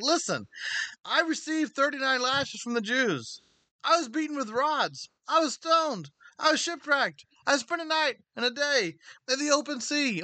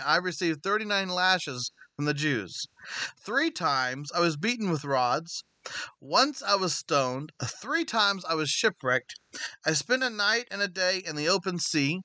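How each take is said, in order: First: High-pitched, indignant list of hardships; acted exasperation, pitch pushed way up; impassioned rebuke. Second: Slow, deliberate recital of hardships; slow and measured, letting each item land; measured scripture reading. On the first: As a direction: throw each hardship back at the complainers. Acting Paul rebuking complainers with hardships. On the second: A narrator's reading. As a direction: read each hardship out slowly, evenly. Reading Paul's hardship list from scripture.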